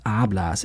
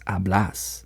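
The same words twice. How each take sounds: First: The stress is on the first syllable. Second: The stress is on the last syllable. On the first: This is the form used with tú. The speaker calls it wrong. "here it's not hablas" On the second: This is the form used with vos. The speaker calls it right. "the last syllable is emphasized"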